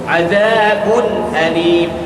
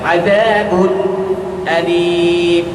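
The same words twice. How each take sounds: First: The nun is clear and flows straight into alim. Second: A pause is held between azabun and alim. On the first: The speaker calls it right. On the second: The speaker calls it wrong.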